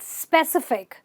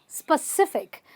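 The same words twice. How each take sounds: First: The first vowel is a long 'ee' sound. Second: The first vowel is short and reduced. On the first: The speaker calls it wrong. "It's not pronounced with a e sound" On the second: The speaker calls it right. "It's a sp"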